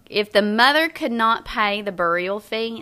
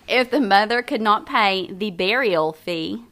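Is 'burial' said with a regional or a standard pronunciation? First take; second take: regional; standard. First: Burial is said with a regional pronunciation. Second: Burial is said with a standard pronunciation. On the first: The speaker calls it wrong. "This is a normal word for me. From Southern West Virginia" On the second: The speaker calls it right. "back up and do it again"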